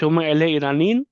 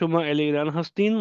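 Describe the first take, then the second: First: The voice rises at the end like a question. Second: The voice falls at the end like a statement. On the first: Are you from Iran? "थोड़ा क्वेश्चन वाली टोन में" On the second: You are from Iran. "Normally बोलेंगे"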